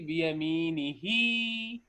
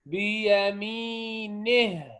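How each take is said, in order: First: The final vowel is stretched out long. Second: The final vowel is dropped entirely. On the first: The speaker calls it wrong. "We don't say بيمينه, no" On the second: The speaker calls it right. "we stopped, and when we stop we drop it"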